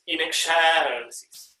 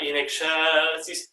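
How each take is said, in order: First: "excelsis" with a longer, heavier middle syllable; displaced accent. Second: "excelsis" evenly drawn out; usual accent placement. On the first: Conductor contrasting accents for choir, "excelsis" leaned on mid-word. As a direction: stretch the CEL of "excelsis". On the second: Conductor contrasting accents for choir, "excelsis" in its first placement. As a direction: say "excelsis" slowly, accent undisplaced. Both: Shown as a demonstration. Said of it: "It displaces the accent".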